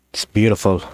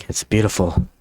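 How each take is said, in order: First: Hushed awe over treasure; awed. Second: Said in the usual way. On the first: Real, not acted. To viewers, admiring fan art like treasure, awed. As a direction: say it like gazing at a pile of gold. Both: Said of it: "I don't know why I said it like that".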